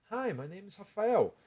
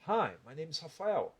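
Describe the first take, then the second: First: Higher, slow mouth placement; high mouth-placed English. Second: Slow English from the chest; chest-resonant, drawn-out delivery. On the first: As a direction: speak from the mouth, pitched up. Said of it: "fiz com a voz de boca". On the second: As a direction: drop the placement into the chest. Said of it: "com a voz de peito". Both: Shown as a demonstration.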